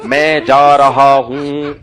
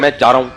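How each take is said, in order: First: It is said slowly and carefully. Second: It is said quickly and casually. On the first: The speaker is being polite and proper. The speaker calls it right. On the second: The speaker is being careless. The speaker calls it wrong.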